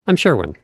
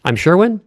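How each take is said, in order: First: "Sherwin" falling at the end; downward inflection. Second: "Sherwin" lifted high like a question; upward inflection. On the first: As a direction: state it, dropping "Sherwin" like a full stop. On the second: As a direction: ask it, sending "Sherwin" up. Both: Shown as a demonstration. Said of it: "Do the same thing".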